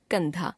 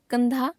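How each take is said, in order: First: Said in the usual way. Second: कंधा with mistaken nasal, high and rising; wrong pronunciation. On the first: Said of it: "शुद्ध". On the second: Shown as a demonstration. Teacher showing a common error, कंधा with mistaken nasal. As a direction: nasalise the first vowel of कंधा, ending upward. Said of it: "अशुद्ध".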